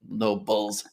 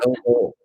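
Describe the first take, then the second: First: The word ends with an added s sound. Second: The word ends without an s sound. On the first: The speaker calls it wrong. "there's no S" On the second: The speaker calls it right. "It's Noble"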